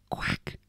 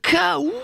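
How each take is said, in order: First: It is said quietly. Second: It is said loudly.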